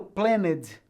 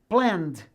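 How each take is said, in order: First: The ending is voiced with a vowel, two syllables. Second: The ending is a bare d sound, one syllable. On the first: The speaker calls it wrong. "Eu não falo planned, ou seja, eu não falo a letra E" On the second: The speaker calls it right. "Eu apenas pronuncio a letra D"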